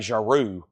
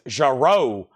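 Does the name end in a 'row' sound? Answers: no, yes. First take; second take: no; yes. First: The last syllable does not sound like 'row'. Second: The last syllable sounds like 'row'. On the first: The speaker calls it wrong. "I think I used to say Jarreau" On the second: The speaker calls it right. "no, it's Jarreau. Row, like row your boat"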